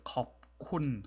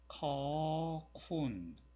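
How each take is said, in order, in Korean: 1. p 소리는 k 앞에서 그대로 남아요. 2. p 소리는 완전히 빠져요. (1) "컵, 콘 하는 것이 되게 어렵죠" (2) "가장 흔히 하는 실수가"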